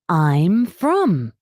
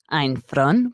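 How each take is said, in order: First: It is pronounced like 'I'm from'. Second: It is pronounced like 'ein von'. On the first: The speaker calls it right. "we say I'm from" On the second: The speaker calls it wrong. "we don't say ein von"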